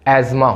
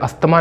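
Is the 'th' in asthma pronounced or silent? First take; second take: silent; pronounced. First: The word is said with a 'z' sound, no 'th'. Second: The word is said with a 'sth' sound. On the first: The speaker calls it right. "एजमा होता है" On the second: The speaker calls it wrong. "अस्थमा नहीं होता है"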